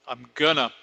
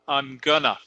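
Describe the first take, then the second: No difference in how they are said.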